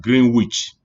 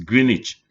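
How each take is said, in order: First: The W in the middle is pronounced. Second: The W in the middle is silent. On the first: The speaker calls it wrong. "you don't pronounce this as Greenwich" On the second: The speaker calls it right. "It's Greenwich. ... you are not uh, pronouncing the W"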